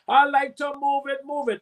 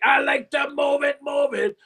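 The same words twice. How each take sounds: First: It is said in his normal voice. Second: It is said in a deep Cookie Monster voice.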